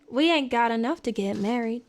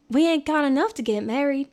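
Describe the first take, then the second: First: Southern belle accent. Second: First try at a Southern belle accent. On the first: Streamer correcting a remembered show line, Southern belle accent. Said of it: "No, wait". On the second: Streamer recalling an old show line, Southern belle accent. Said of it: "like a Southern belle accent". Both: Shown as a demonstration.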